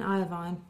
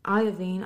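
First: Iovine said as "eye-oh-vine", softer; corrected pronunciation. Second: Iovine said as "eye-oh-veen"; first pronunciation. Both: Real, not acted. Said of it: "so sorry".

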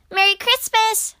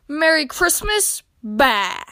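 First: High, loud festive call; cheery shout. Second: Louder, mocking echo of the greeting; grumpy shout back. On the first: Squirrel greets Grumpy Badger at his window, shouting. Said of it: "shouted Squirrel". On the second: Grumpy Badger rejects Squirrel's Christmas greeting, shouting back. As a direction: throw it back scornfully, dropping onto a curt Bah. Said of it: "he shouted back". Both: A narrator's reading.

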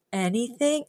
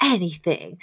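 First: "Anything?" with a rising, hopeful question tune. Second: "Anything." with a settled falling tune; firm promise. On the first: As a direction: ask "Anything?" as if testing the promise. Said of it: "And she's like". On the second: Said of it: "And he's like". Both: Retold or imitated.

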